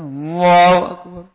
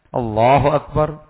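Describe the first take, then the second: First: The syllables are pronounced incompletely and unclearly. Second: Every syllable is pronounced fully and clearly. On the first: The speaker calls it wrong. "Jangan Allahu Akbar ... itu kurang sempurna" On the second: The speaker calls it right. "yang sempurna, yang jelas"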